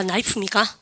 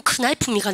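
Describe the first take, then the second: First: Said in the usual way. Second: "큰 나이프" with an audible K before the N; K sounded in knife. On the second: Shown as a demonstration. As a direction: wrongly voice the silent K in "큰 나이프". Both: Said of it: "K 발음 묵으면".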